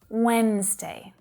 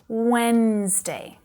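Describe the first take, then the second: First: The word is said with two syllables. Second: The same.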